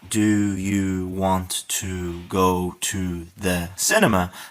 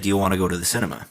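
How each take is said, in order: First: Each word is said slowly and separately. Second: The words are run quickly together.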